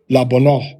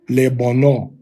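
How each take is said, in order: First: The first syllable has a quick 'ah' vowel. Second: The first syllable has an 'eh' vowel. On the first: "the Tiberian pronunciation is going to be a quick La" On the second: "in the other systems of Hebrew, you're gonna say this one"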